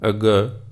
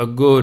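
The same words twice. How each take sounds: First: ਅੱਗਾ ending in an open long "aa"; correct reading ਅੱਗਾ. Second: ਅੱਗੋਂ ending in a nasal "o" sound; misreading as ਅੱਗੋਂ. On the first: Preacher shows listeners how the verse is read, corrected ਅੱਗਾ. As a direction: say ਅੱਗਾ with a clear "aa" ending, not "on". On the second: Preacher warns listeners how not to read the verse, misread ਅੱਗੋਂ. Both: Shown as a demonstration. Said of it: "ਇਹਨੂੰ ਅੱਗੋਂ ਨਹੀਂ ਪੜ੍ਹਨਾ".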